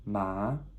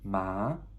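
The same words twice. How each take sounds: First: The pitch goes up from mid to high. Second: The same.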